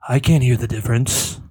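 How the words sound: It is said in a sultry, breathy voice.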